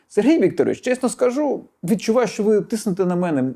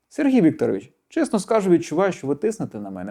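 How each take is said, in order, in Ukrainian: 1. Тон звучить агресивно і напористо. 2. Тон звучить спокійно і доброзичливо. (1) "Правильну фразу можна сказати в неправильній інтонації. ... Відчуваєте наїзд" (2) "Але, якщо сказати так"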